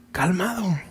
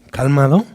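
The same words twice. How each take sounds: First: "calmado" very soft, falling gently; calm and tender. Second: "Calmado" echoed softly with a skeptical rise; sarcastic echo. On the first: Acted. Someone arrives in the storm, calming you softly. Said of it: "con qué autoridad y con qué amor". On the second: Retold or imitated. A troubled person repeats Jesus' word, sarcastic. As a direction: mimic "Calmado" in disbelief, rising. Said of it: "la reacción será".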